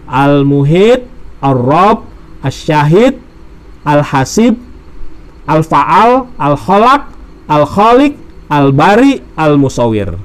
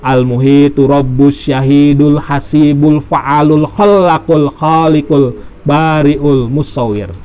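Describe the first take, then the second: First: Each name is said on its own, with pauses. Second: The names run together with linking vowel endings.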